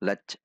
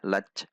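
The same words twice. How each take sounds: First: The final consonant sounds like ch. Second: The final consonant sounds like ch.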